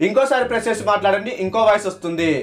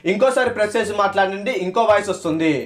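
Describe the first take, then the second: No difference in how they are said.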